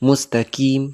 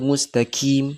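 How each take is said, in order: Both takes have the same delivery.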